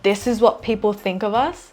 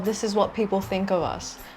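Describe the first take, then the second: First: It is said in an upset, shocked way. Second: It is said in a careless, offhand way. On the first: It deeply bothers her. "Instead of saying it as, oh my god" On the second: It does not matter to her. "with a lot more carelessness"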